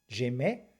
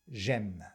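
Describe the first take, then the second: First: The final E is pronounced as a vowel. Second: The final E is silent, ending on a consonant. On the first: It could be confused with the past tense. The speaker calls it wrong. "si tu prononces ce E, notamment si tu le prononces comme un E" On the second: It is the present tense. The speaker calls it right. "le E de j'aime au présent ne se prononce surtout pas"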